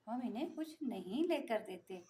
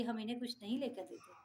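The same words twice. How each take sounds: First: "हम इन्हें कुछ नहीं लेकर देते" drawn out slowly, with weight on "लेकर"; sarcastic slow repeat. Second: Said in the usual way. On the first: Shown as a demonstration. Mother mocking her daughters' complaint to viewers, slow and sarcastic. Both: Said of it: "अब आप खुद बताइए".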